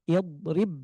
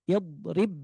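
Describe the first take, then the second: Both takes have the same delivery.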